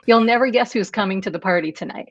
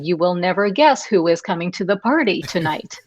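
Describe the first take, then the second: First: Some words are joined into short contractions. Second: Each word is said in full, without contractions. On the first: The speaker calls it right. "You'd say" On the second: The speaker calls it wrong. "we don't say"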